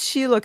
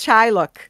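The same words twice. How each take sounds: First: The name is pronounced with Portuguese sounds. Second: The name is pronounced with English sounds. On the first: "ele não diz Shylock" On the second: "ele diz Shylock"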